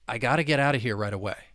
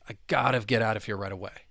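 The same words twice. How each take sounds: No difference in how they are said.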